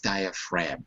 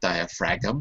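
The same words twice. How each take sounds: First: No G sound is heard at the end. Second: A G sound is heard at the end. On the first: The speaker calls it right. "the G is silent" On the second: The speaker calls it wrong. "but it's not diaphragm"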